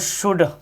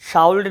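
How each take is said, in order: First: The L sound is silent. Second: The L sound is pronounced. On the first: The speaker calls it right. "एल जो है वो silent हो रहा है" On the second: The speaker calls it wrong. "शाउल्ड नहीं पढ़ना"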